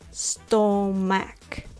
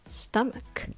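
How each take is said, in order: First: The first vowel sounds like 'aw'. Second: The first vowel sounds like 'uh'. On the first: The speaker calls it wrong. "You might be tempted to pronounce it" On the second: The speaker calls it right. "I just remember by the sound"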